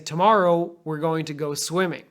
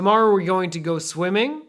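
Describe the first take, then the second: First: The voice falls on the word swimming. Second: The voice rises on the word swimming. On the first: That is the only activity. "you know that's it" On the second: More activities are still coming. "if I go up on swimming, you're waiting for more to come"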